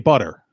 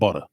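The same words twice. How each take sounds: First: The final R is clearly pronounced. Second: The final R is dropped. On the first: The speaker calls it right. "I'll put the R at the end of butter" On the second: The speaker calls it wrong. "It's not butter"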